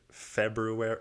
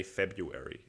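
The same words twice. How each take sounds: First: "February" as Feb-roo-ary; sounded R. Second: "February" as Feb-yoo-ary, no first R; letter left out. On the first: Testing whether "February" rings true, first R sounded. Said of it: "It doesn't fucking ring". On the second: Giving up on "February", leaving out the first R. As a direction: settle on "February" without the R after B. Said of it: "actively leaving a fucking word out". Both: Shown as a demonstration.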